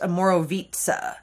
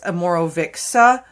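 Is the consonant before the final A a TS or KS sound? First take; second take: TS; KS. First: The consonant near the end sounds like TS. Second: The consonant near the end sounds like KS. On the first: The speaker calls it right. "the C is pronounced like a T, and this I is pronounced like a long E" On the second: The speaker calls it wrong. "It looks like it's a Morovixa"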